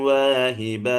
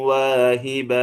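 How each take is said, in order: The two takes are said the same way.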